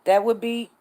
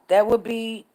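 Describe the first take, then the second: No difference in how they are said.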